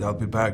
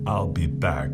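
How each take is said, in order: First: The line is said plainly, in an ordinary voice. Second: The line is said in a dramatic, film-character voice. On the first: The speaker calls it wrong. "no, no, no, no, the way you say it in the movies" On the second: The speaker calls it right. "the way you say it in the movie"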